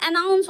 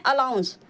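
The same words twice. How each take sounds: First: अनाउंस said clearly with n, a-NAUNS; correct pronunciation. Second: अलाउंस said with an l sound, as some people wrongly say it; wrong pronunciation. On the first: Shown as a demonstration. Teacher correcting students on the right word. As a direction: stress the n in अनाउंस as the right form. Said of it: "जबकि वो गलत होता है, वहाँ अनाउंस होता है". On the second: Retold or imitated. Teacher quoting the mistake heard at railway platforms. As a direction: say अलाउंस with l, mimicking the common mistake. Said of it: "कुछ व्यक्तियों के मुंह से सुनते हैं".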